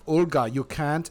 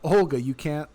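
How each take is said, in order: First: It is spoken with a put-on German accent. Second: It is spoken in the speaker's normal accent.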